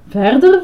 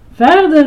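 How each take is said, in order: First: "Verder?" asked with a rising end; questioning. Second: High, loud, eager cry; excited call. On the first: Ice-cream man echoes "Verder?" as a rising question. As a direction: echo "Verder?" higher, as a puzzled question. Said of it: "vroeg Grover". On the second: Boy urges the ice-cream man on, excited call. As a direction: urge him on, higher and louder. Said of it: "riep Herbie opgewonden". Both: A narrator's reading.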